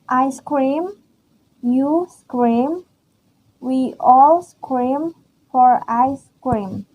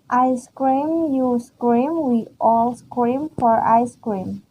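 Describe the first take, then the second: First: It is read slowly. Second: It is read at normal speed.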